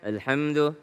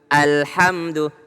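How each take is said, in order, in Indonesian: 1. Vokal pembuka dimulai dengan lembut, tanpa hentakan yang ditekan. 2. Vokal pembuka dimulai dengan hentakan yang tegas dan ditekan. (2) "harus ditekan"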